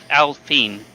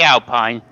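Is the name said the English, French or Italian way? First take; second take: French; English. First: It is said with a French pronunciation. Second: It is said with an English pronunciation. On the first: The speaker calls it right. "it's a French team, it's pronounced Alpine" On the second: The speaker calls it wrong. "I say Alpine. That's not how you pronounce it"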